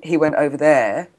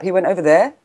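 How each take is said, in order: First: The word 'there' is said plainly. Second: The word 'there' is lifted up in pitch.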